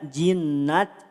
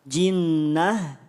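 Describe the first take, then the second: First: The word ends with a t sound. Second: The word ends with an h sound. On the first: The speaker calls it wrong. "tidak jinnat" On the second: The speaker calls it right. "tidak dibaca ta, tapi dibaca ha"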